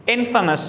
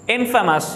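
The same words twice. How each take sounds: The two takes are said the same way.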